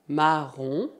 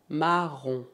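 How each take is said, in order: No difference in how they are said.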